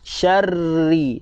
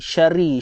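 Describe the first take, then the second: First: The r sound is held and doubled. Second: The r sound is short and single. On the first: The speaker calls it right. "ada sabdu, maka syarri ma khalaq" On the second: The speaker calls it wrong. "bukan syari"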